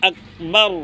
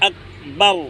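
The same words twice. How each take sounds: The two takes are said the same way.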